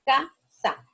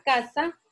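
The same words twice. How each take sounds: First: "casa" split into ca, pause, sa; syllable by syllable. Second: Said in the usual way. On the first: Shown as a demonstration. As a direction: sound out "casa" in two separate beats. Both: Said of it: "vemos que casa".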